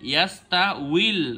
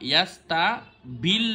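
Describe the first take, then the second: First: The consonant after 'yasta' is a w sound. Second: The consonant after 'yasta' is a b sound. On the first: The speaker calls it right. "আপনি বলবেন ইয়াস্তা উইল" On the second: The speaker calls it wrong. "ইয়াস্তা বিল দেওয়া আছে এখানে"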